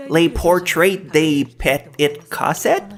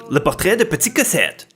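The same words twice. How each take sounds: First: Slow, over-Anglicized French title in an American accent; masked French accent. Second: Title said quickly in native French pronunciation; French accent. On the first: Shown as a demonstration. Host retries the title to hide French, exaggerated American accent. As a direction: spell it out slowly with mock American pronunciation, rising at the end. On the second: Real, not acted. Host announces the anime title to viewers, French accent. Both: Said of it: "try to mask my French accent".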